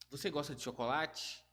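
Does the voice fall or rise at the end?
rise. It is said as a question, rising at the end.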